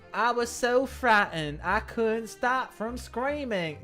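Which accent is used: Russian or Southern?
Southern. It is spoken in a Southern American accent. "do you want me to do a southern one?"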